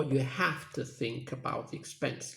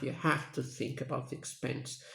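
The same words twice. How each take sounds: First: Said in the usual way. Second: Teacher repeats it, leaning on "have"; stress on have. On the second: Shown as a demonstration. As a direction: punch the word "have". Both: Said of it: "So the stress is on have".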